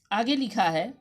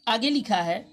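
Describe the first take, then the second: No difference in how they are said.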